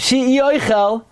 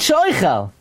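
First: The aleph is stressed, splitting the word apart. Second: The aleph is blended smoothly into one word. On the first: He swore not to eat. "He got a little bit too much emphasis on aleph" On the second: He swore to eat. "he meant she'oichel"

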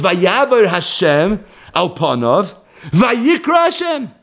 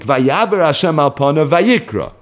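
First: There is a break before vayikra. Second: It runs through to vayikra without a break.

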